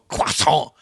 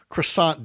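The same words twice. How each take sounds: First: Croissant is said in an exaggerated French way. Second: Croissant is said the plain English way. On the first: "or for those of you who prefer, National Croissant Day. Which sounds more like a sound effect" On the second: "This is National Croissant Day"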